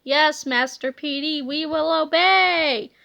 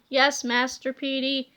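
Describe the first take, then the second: First: Slow droning zombie; zombie reply. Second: Lower, softer droning zombie; zombie reply. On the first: Zombie cops answer. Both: Acted. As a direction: answer like a mindless zombie.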